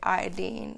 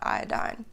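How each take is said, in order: First: The last syllable ends with an 'een' sound. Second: The last syllable ends with an 'ine' sound. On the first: The speaker calls it right. "this is why we say iodine" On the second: The speaker calls it wrong. "not iodine"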